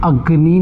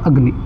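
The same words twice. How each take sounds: First: The final vowel is drawn out long. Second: The final vowel is short and quick. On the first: The speaker calls it wrong. "अग्नि नहीं बोला हमने" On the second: The speaker calls it right. "हमने बोला अग्नि"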